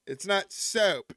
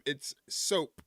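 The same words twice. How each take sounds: First: Soap stretched slow toward "saoup" in a mock Southern accent. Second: Soap with a clean standard long o; plain soap. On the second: Retold or imitated. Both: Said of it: "that's how people down south in Tennessee talk".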